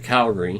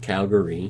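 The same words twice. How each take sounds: First: The syllables run together in a slurred way. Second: Every syllable of the word is said clearly. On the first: "slurring of words" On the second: "proper pronunciation of Calgary"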